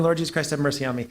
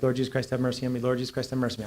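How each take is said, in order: First: Quick prayer. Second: Low, soft murmured prayer; a soft repeated prayer. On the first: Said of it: "I was praying". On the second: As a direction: pray it under your breath. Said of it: "I was praying the Jesus prayer". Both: Retold or imitated.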